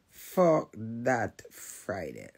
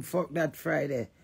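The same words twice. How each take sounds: First: Fuck that Friday dragged out slowly and lower; slow low repeat. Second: Said in the usual way. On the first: Real, not acted.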